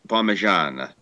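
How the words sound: The word ends in an 'a' vowel sound. This is how it is said in the middle of the country. "more towards the middle, it's Parmigiana"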